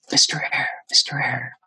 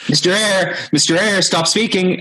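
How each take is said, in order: First: Hushed, whispery imitation of a faint voice; quiet voice. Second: High, raised imitation of someone interrupting; insistent calling. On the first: Quiet voice in his headphones trying to interrupt, hushed. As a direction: call the name softly, nearly whispered. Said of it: "this quiet voice like". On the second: Voice in his headphones stopping the speaker, insistent and high. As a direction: call out the name higher, cutting in. Quiet interruption escalates to a call.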